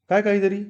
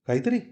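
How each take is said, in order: First: काय hit higher and sharper, then काहीतरी; baffled husband pressing his wife; stress on काय. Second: Soft, quiet rising echo of काहीतरी; repeating her word under his breath; puzzled echo. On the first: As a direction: demand it: काय first, punched. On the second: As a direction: say काहीतरी softly with a questioning lift. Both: Acted.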